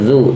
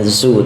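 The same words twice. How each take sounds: First: The consonant is a soft th-like sound. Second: The consonant is a plain z sound. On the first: The speaker calls it right. "tapi zu, zal. Huruf zal" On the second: The speaker calls it wrong. "Tidak dibaca dengan zu"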